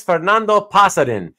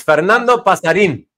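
First: "Pasarin" with the last syllable unstressed; imitating the wrong stress on "Pasarin"; mispronounced surname. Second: "Pasarin" with a long, stressed "een" at the end; correcting it to pa-sa-REEN for "Pasarin"; Spanish stress on final syllable. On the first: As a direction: say Pasarin English-style, stress off the final syllable. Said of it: "he still actually says it wrong". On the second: Shown as a demonstration. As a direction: land hard on the last syllable of Pasarin. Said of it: "you emphasize the in part".

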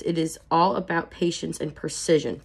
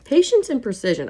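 First: Said in the usual way. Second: "Patience" punched higher and louder, falling at the end; emphatic repeat. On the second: Shown as a demonstration. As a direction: hit "Patience" hard in an echoed phrase. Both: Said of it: "I like that".

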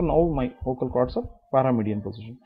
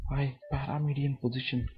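First: Said in the usual way. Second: Soft unvoiced whisper. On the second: Shown as a demonstration. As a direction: whisper it to show the breathy voice. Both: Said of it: "When I want to whisper".

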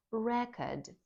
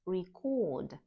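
First: Record stressed on REC, noun form; REC-ord, the noun; stress on first syllable. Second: Record stressed on CORD, verb form; stress on second syllable. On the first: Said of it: "наголос на першому складі". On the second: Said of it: "наголос на другому складі". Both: Shown as a demonstration.

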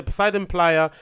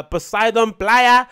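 First: Said in the usual way. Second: Poseidon Playa loud, higher and stretched out; hammed-up name. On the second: Reader repeating hotel name, "Poseidon Playa" hammed up slowly.

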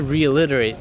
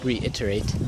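First: Reiterate said as ree-uh-li-ter-ay with an l sound; mispronounced reiterate. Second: Reiterate said clearly as ree-it-er-ate; corrected reiterate. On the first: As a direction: reiterate slurred, t dropped at the end. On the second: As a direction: reiterate carefully fixed, final t said. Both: Real, not acted.

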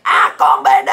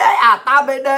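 First: Mimicking a taunting cry; hecklers' mock yelling. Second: Said in the usual way. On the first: Ranter mimics critics name-calling, mock yelling. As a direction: throw the insult out as a mock yell. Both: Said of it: "tụi bay la làng hoài".

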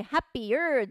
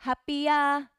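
First: "happier" with a strongly curled final R; hard R ending. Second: "happier" ending in an open "ah"; soft ending. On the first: Teacher showing the version to avoid, "happier" with heavy R. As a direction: lean on the R at the end of "happier". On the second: Teacher correcting learners, "happier" with softened ending. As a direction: let "happier" end loosely, almost without R. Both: Shown as a demonstration. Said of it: "happierではなく".

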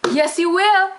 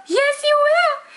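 First: Put-on cooing at a baby, a bit higher and louder; baby talk. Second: Put-on very high, slow cooing baby talk. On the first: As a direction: coo it like talking to an infant. Talking to viewer like a baby. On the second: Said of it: "No, you're not a baby".

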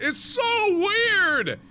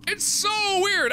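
First: Much higher, louder and drawn out; shouted complaint. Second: Higher and drawn out but less loud; echoed wail. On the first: Fran baffled by the fairies, in a high drawn-out shout. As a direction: wail it in frustration. Confused girl crying out. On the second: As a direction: repeat the wail, easing off. Repeated complaint. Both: Acted.

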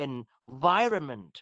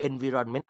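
First: Slow "environment", en-VAI-ruh-ment; correct pronunciation. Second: "environment" as en-vi-ron-men, evenly weighted; rejected pronunciation. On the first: Shown as a demonstration. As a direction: lean hard on VAI in "environment". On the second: Retold or imitated. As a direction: mimic the wrong "environment" with a full RON. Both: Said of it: "ไม่มี environment อ่านว่า".

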